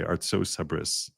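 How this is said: The words end with an 's' sound. This is how American speakers say it. "Americans would say Artsos Habris"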